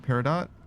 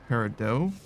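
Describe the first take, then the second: First: The final T is pronounced. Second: The final T is silent, ending in long O. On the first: This is how the show says the name. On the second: This is how the speaker always thought it was said.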